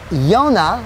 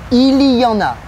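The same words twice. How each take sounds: First: It is said quickly and reduced. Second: It is said slowly and in full.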